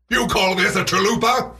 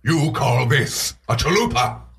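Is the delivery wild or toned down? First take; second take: wild; toned down. First: It is said in an over-the-top, wild way. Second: It is said in a calmer, toned-down way.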